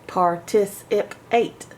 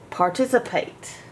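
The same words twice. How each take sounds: First: "Participate" said slowly and carefully as one word; slow whole word. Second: Said in the usual way. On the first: Shown as a demonstration. Teacher blending "participate" back slowly. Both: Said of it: "How many syllables".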